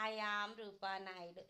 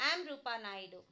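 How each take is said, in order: First: "I am Rupa Naidu" with the I said clearly before am; full I am. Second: "Am Rupa Naidu" with the I left out, starting straight on am; dropping the I. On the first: Teacher showing students the wrong full form, I sounded. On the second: Teacher showing students the spoken form, I dropped. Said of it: "So what you pronounce means only am". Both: Shown as a demonstration.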